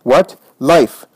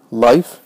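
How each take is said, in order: First: Sudden cry of absolute belief; short, emphatic exclamation of faith. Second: Incredulous question, then a mocking laugh; scornful echo. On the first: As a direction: cry it out with total conviction. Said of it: "a cry of absolute faith". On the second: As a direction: throw it back as a rising, scoffing question. Scornful reply to her faith. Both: A narrator's reading.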